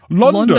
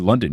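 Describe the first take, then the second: First: It is said in a put-on British accent. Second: It is said in a plain American accent. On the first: The speaker calls it right. "You should say like London" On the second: The speaker calls it wrong. "you shouldn't say London"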